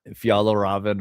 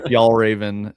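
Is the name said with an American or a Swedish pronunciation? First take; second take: Swedish; American. First: It is said with a Swedish-sounding pronunciation. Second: It is said with an American pronunciation. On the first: The speaker calls it right. "not like Fjallraven or whatever the fuck it is" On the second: The speaker calls it wrong. "as Americans, we say Fjallraven"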